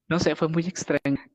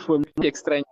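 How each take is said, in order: First: Said in the usual way. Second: Laughing. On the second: Real, not acted. Recalling how oddly the girl left, laughing. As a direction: laugh through fue muy extraña.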